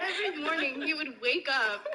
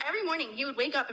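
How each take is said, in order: First: Put-on British accent; lightly done British voice, laughing. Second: Quicker put-on British accent; British voice, slightly rushed. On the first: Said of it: "Can I do an impression?". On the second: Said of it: "do that British voice".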